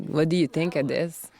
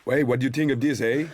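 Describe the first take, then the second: First: Put-on Quebec accent. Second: Put-on a touch of Quebec accent, teasing, a bit higher and brighter with a tagged-on eh; mock Quebec accent. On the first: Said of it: "seeing as I'm Quebecer, I would be like". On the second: Co-star teasing the Quebecer with her accent, mild mock Quebec accent. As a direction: play up the Quebec lilt on the eh. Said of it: "I'm Quebecer".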